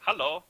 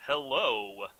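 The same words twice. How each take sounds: First: Hello with a German accent, pitched up. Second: Said in the usual way. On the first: Shown as a demonstration. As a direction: say hello as a German would, louder and higher. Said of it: "if I was a German, I would say". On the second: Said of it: "I wouldn't say, like".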